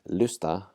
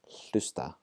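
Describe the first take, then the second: First: The word starts without any h sound. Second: The word starts with a breathy h sound. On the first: The speaker calls it wrong. "Rather than saying lusta, lusta, and ignoring the H" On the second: The speaker calls it right. "we're going to pronounce the H"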